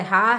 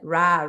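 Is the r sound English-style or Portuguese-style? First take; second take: Portuguese; English. First: The r is a Portuguese-style r sound. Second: The r is an English-style curled-tongue r sound. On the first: "Nosso som do R do português é ra" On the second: "No inglês é ra"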